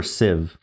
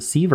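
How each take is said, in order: First: "sieve" said with a short i, like "siv"; short-vowel pronunciation. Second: "sieve" said with a long ee, like "seev"; long-vowel pronunciation. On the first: Puzzler offering the other option, "sieve" as "siv". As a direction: rhyme "sieve" with "give". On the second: Puzzler asking themself which is right, "sieve" as "seev". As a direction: rhyme "sieve" with "leave". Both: Shown as a demonstration. Weighing two pronunciations of word.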